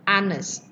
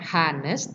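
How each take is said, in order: First: The word begins directly with a vowel sound. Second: The word begins with an audible H sound. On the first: The speaker calls it right. "tapi bacanya kan A, honest" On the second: The speaker calls it wrong. "pakai H depannya, bukan honest"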